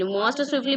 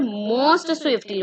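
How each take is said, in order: First: Said in the usual way. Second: "most swiftly" very slowly, each word spelled out; slow and deliberate. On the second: Shown as a demonstration. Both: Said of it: "because here we are comparing all of the boys".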